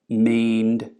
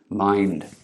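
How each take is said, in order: First: The vowel is a single steady pure vowel. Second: The vowel glides as a diphthong. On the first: "a pure vowel" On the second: "a long vowel, a diphthong"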